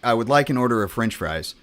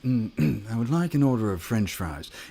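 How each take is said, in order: First: It is said in a plain, neutral accent. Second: It is said in an English accent. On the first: "that's me saying like" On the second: "Or in England"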